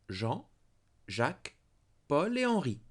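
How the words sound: Each of the four names is set apart. Four different men are named. "Quatre hommes. Four men"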